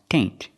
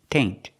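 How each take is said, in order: No difference in how they are said.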